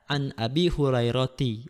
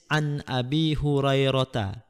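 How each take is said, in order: First: The name ends with an added -ti syllable. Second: The name ends without an i-vowel, as Hurairah. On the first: The speaker calls it wrong. "kalau tidak tahu mungkin dibaca an Abi Hurairati" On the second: The speaker calls it right. "Dia tidak boleh dibaca kasroh"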